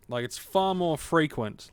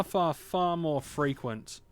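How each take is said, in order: First: Said in the usual way. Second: Far, far drawn out slowly; stress on far. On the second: Real, not acted. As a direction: lean slowly on each far.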